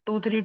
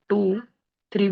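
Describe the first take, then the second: First: The two numbers are run together quickly. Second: A short pause separates the two numbers. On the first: The speaker calls it wrong. "Fast में नहीं बोलते" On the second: The speaker calls it right. "थोड़ा pause लेते हैं"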